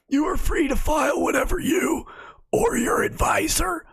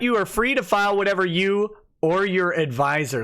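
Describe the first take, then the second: First: It is read in a put-on imitating voice. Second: It is read in the speaker's natural voice.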